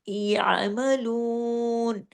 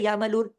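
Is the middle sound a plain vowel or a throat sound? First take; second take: throat sound; plain vowel. First: The middle sound is made deep in the throat. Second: The middle sound is a plain vowel, no throat. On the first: The speaker calls it right. "आइन की आवाज आपके गले में आना चाहिए" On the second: The speaker calls it wrong. "आइन को आपने अलिफ की तरह या मलून ऐसे नहीं कर देना"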